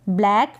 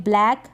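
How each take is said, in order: The two takes are said the same way.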